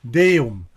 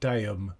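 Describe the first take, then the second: First: The first vowel is a clear E sound. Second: The first vowel is not a clear E. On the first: The speaker calls it right. "rather than" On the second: The speaker calls it wrong. "rather than Deum"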